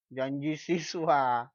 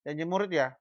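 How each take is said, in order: First: Janji siswa said slowly with siswa stressed; slow teacherly correction on siswa; slow stressed answer. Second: Said in the usual way. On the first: Shown as a demonstration. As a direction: draw out Janji siswa deliberately. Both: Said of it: "Janji murid atau janji siswa?".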